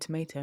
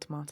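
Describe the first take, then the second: First: It is said with an American 'ay' vowel. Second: It is said with a British 'ah' vowel. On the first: This is how the American listener says it. "you would say tomato" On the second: This is how the English speaker says it. "not tomato"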